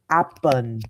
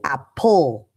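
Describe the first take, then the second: First: The word ends without a clear L sound. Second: The word ends with a clear L sound. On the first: The speaker calls it wrong. "you'll hear kids say apple" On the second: The speaker calls it right. "when it's actually apple"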